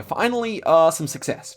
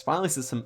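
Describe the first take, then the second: First: Relieved cry. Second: Said in the usual way. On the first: Real, not acted. Relief after a long losing run.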